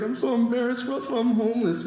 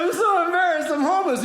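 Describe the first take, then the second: First: Lightly acted tearful voice, pitched up; retold tearful confession. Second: High, hammed-up whine of shame; mock tearful plea. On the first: Homeless friend to generous comic, mildly tearful confession. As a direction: confess it with a mild mock cry. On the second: Comic copying the homeless friend's confession, mock tearful plea. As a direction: plead in a much higher fake-pitiful voice. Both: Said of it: "The guy starts crying".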